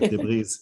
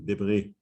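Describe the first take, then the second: First: The final s is clearly sounded. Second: The final s is silent. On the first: The speaker calls it right. "because we pronounce the S" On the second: The speaker calls it wrong. "No, sorry"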